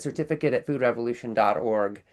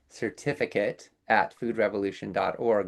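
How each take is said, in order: First: It is said at normal speed. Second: It is said a little more slowly.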